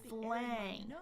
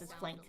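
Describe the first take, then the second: First: Said slowly with a wide open ah vowel. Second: Said fast with a vowel close to eh. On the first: The speaker calls it right. "I'm way over articulating here" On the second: The speaker calls it wrong. "when they say it fast, it's flank ... Almost sounds like an eh sound sometimes"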